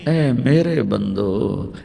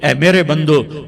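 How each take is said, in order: First: It is said tenderly, like a loving mother. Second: It is said in a plain, flat tone.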